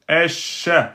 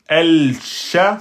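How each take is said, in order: First: The l merges into a doubled sh sound. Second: The article is said with a clear l sound. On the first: The speaker calls it right. "on va prononcer... le a et le shin" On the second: The speaker calls it wrong. "on ne va pas dire el-sha, c'est impossible à dire"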